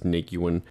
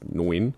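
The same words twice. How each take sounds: First: The name is said in an older eighties-style form. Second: The name is said in its accepted modern form. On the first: This is how they believed it was said back then. The speaker calls it wrong. "I know we both thought it was Nguyen" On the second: This is how the name is really pronounced. The speaker calls it right. "I do realise the pronunciation is Nguyen"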